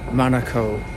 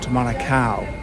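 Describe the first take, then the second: First: It is pronounced much like the word Monaco. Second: It is pronounced unlike the word Monaco. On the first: The speaker calls it right. "it is Manukau, ... So it's a bit like Monaco" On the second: The speaker calls it wrong. "not Manukau"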